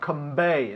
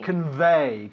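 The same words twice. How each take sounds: First: The consonant after 'con' is not a v. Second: The consonant after 'con' is a clear v. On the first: The speaker calls it wrong. "not convey" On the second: The speaker calls it right. "It's un V"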